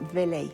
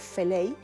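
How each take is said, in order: First: The first consonant is a voiced v sound. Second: The first consonant is a voiceless f sound. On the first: The speaker is from Galvarino northward. "la zona de Galvarino hacia arriba dicen veley" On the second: The speaker is from the coast. "yo soy de la costa, nosotros decimos feley"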